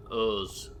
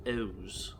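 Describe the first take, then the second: First: Said in the usual way. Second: O's with the vowel left unrounded; O's softer, with an unrounded Yorkshire vowel. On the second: Shown as a demonstration. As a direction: say O's without rounding the lips. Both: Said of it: "they don't even round the O's".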